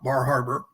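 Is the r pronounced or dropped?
pronounced. It is said with the r sounds pronounced.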